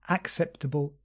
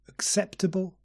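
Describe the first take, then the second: First: The first vowel is a full vowel. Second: The first vowel is a relaxed schwa. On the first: The speaker calls it wrong. "Not acceptable" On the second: The speaker calls it right. "begin with schwa"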